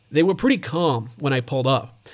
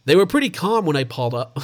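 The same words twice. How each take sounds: First: Put-on a settled, steadier American accent on "They were pretty calm"; second try, sink into the American accent. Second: Put-on a clumsy first try at an American accent on "They were pretty calm"; bad American accent. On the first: Host rereads a neighbour's quote in a mock American accent. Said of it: "Let me try that again". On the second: Australian host botches a neighbour's quote in a mock American accent. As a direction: fumble a put-on American accent, half-hearted. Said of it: "That's a bad accent".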